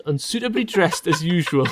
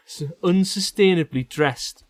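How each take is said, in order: First: "Unsuitably" said correctly as un-SUIT-ably; corrected reading. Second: "unsustainably" said in place of unsuitably; misreading. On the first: Reader correcting his own slip. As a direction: fix it to "Unsuitably". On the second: Reader misreading a word aloud. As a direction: read "unsustainably" as a slip. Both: Real, not acted.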